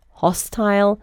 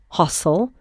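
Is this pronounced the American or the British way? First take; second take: British; American. First: It is said in a British pronunciation. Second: It is said in an American pronunciation.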